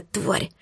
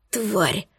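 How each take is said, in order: First: Тварь hissed much softer, almost breathed; furious hissed тварь; hissed insult. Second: Тварь breathed out much softer, worn out; drained, pained gasp of тварь; exhausted exhale. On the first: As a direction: spit out тварь as a quiet venomous hiss. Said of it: "Шипела я злобно". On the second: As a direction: squeeze тварь out on a tired breath. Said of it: "вымученно выдохнул Малир". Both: Acted.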